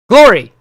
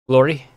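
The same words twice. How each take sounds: First: It is shouted at full volume. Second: It is said at a normal, quiet volume.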